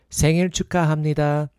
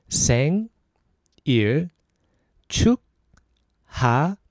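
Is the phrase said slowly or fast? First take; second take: fast; slowly. First: The phrase is said fast. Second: The phrase is said slowly.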